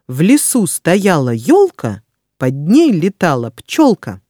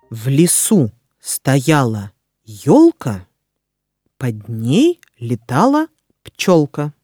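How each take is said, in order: First: It is read at a fast pace. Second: It is read at a slow pace. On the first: "А затем я проговорю скороговорку быстро" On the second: "Сначала я прочитаю скороговорку медленно"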